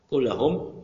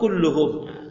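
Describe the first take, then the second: First: The vowel after kull is a. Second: The vowel after kull is u. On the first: The word continues the previous clause. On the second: The word begins a new sentence as its subject.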